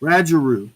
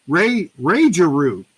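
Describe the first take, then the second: First: "Rajaroo" with a short A, as in "badge"; trying a pronunciation. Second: "Rajaroo" with a long A, starting RAY; trying another pronunciation. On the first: Host checking a viewer's name, "Rajaroo" with short A. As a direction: say "Rajaroo" starting RADGE, short A. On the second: Host checking a viewer's name, "Rajaroo" sounded out as RAY-juh-roo. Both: Shown as a demonstration. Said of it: "I'm gonna keep saying it".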